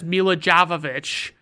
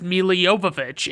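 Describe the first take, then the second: First: The name is said the way most people say it. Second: The name is said the way its owner says it. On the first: This is how most people say the name. The speaker calls it wrong. "everybody says Mila Jovovich" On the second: This is how the person herself says her name. The speaker calls it right. "she says Mila Jovovich"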